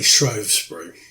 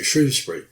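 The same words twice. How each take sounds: First: The first syllable does not sound like shrew. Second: The first syllable sounds like the word shrew. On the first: This is how some outsiders say it. "some people outside the area say" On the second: This is how locals say it. "pronounced like the animal, the shrew"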